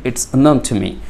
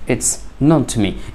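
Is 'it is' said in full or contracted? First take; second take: contracted; contracted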